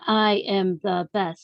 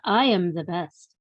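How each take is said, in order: First: The words are said separately, not linked. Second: The words are linked smoothly together. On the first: "instead of saying" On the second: "you said, ... linking your words together"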